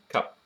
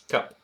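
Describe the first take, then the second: First: The vowel sounds posh, between 'a' and 'e'. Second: The vowel sounds posh, between 'a' and 'e'.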